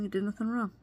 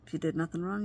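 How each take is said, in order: First: "you did nothing wrong" raised higher, landing with a firm fall on "wrong"; firm emphasis. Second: Said in the usual way. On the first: Shown as a demonstration. Reassuring viewers they are blameless, emphatic and higher. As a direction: lift the whole phrase and settle "wrong" down with conviction.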